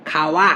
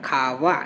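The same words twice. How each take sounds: First: "খাওয়া" with an open ওয়া, teeth not used; wrong w. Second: "খাওয়া" low and soft, as kha-va; touch teeth to lip in "খাওয়া"; labiodental glide. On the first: Teacher showing "not like this", open w in "খাওয়া". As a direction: round "খাওয়া" as kha-wa. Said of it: "এরকম না". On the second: Teacher showing the right way, soft v in "খাওয়া". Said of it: "এইভাবে উচ্চারণটা করি". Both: Shown as a demonstration.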